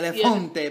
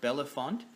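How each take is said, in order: First: The name is said with an Italian-style pronunciation. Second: The name is said with a plain English pronunciation. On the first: The speaker calls it wrong. "I was kind of reading it like almost like Italian or French" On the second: The speaker calls it right. "but it's uh, Bellefonte"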